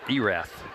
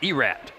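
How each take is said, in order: First: The word ends with a th sound. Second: The word ends with a plain t sound. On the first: This is how outsiders say the name. The speaker calls it wrong. "and not Erath" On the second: This is how locals say the name. The speaker calls it right. "it properly would be said if you're from Erath, you say Erat"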